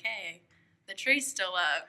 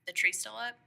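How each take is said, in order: First: Drawn-out, louder mock announcement; imitating his wake-up call. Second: Retold morning check, lightly questioning; imitating his wake-up question. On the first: Teasing him over how he woke her, slow mock call-out. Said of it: "that was your way of, like, being like". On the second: Husband knocking to wake her about the tree, mock questioning. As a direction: ask it like someone poking into a bedroom. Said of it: "knocked on the door and he was like".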